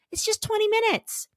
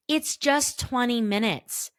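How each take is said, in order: First: Much higher, light voice; small high voice; high-pitched. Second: Said in the usual way. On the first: Shown as a demonstration. High aside, then repeated plainly.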